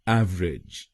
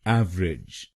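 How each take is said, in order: First: It is said with two syllables, av-rij. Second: The same.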